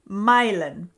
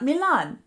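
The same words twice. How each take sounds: First: The name is pronounced the local way. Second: The name is pronounced the non-local way. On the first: The speaker calls it right. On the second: The speaker calls it wrong.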